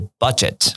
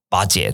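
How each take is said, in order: First: It is said with English 'budget' sounds. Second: It sounds like the Mandarin word 'bajie'. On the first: The speaker calls it right. "不是巴结人家哦，是budget" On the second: The speaker calls it wrong. "蛮多台湾人会把它讲成什么巴结之类的"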